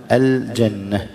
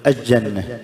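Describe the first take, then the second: First: «الجنة» slowly as al-janna, distinct l; clear lam. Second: «الجنة» as aj-janna, l lost in doubled j; merged lam. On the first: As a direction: hold the l of «الجنة» before the jim. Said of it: "اللام مظهرة". («الجنة» بإظهار اللام) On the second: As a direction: swallow the l of «الجنة» into the jim. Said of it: "إدغام اللام". («الجنة» بإدغام اللام في الجيم) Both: Shown as a demonstration.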